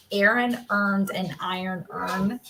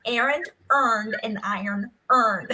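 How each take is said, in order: First: Said in the usual way. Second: "Aaron earned an iron urn" with every sound crisply spelled out; man exaggerating careful diction; over-enunciated. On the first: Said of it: "look up the phrase". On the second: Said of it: "over enunciates".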